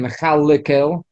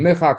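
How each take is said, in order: First: An extra vowel is sounded between the l and k. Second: The l joins the k with no vowel between. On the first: The speaker calls it wrong. "You're not saying Mechalikel" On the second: The speaker calls it right. "the Lamed has a Shva also, but you're not mentioning"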